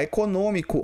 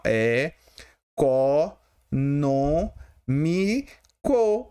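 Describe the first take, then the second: First: Said in the usual way. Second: "É, co, no, mi, co" spaced out, each syllable alone. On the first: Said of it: "separa assim". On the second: Shown as a demonstration. Teacher separating syllables for the class, each one spaced out. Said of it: "Assim, ó, separa assim".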